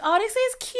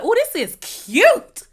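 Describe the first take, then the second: First: It sounds dismissive and unimpressed. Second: It sounds sincere and genuinely pleased. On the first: The place is disappointing and small. "I'm not impressed by what I see" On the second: The place really is nice. "that means, oh, okay, this is nice"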